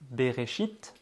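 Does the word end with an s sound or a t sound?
t sound. The word ends with a t sound. "au lieu d'écrire le T"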